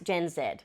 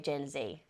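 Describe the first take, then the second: First: The letter is pronounced zed, rhyming with bed. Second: The letter is pronounced zee, rhyming with easy. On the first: This is the usual Australian form. "Obviously in Australia it's Gen Z, as in Z E D" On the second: This is a forgivable non-Australian form. "as in easy"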